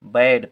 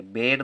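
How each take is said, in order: First: बैड with an open ae vowel, as in bad; correct reading. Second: बेड with a closed e vowel, as in bed; wrong reading. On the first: Teacher showing pupils the right reading बैड, open vowel. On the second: Teacher showing pupils the wrong reading बेड, closed vowel. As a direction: say बेड with a closed e, the mistake to avoid. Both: Shown as a demonstration. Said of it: "बेड नहीं पढ़ेंगे".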